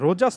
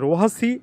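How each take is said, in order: First: The middle consonant is a j sound. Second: The middle consonant is an h sound. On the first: The speaker calls it wrong. "রোজাস নয়" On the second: The speaker calls it right. "Spanish উচ্চারণে"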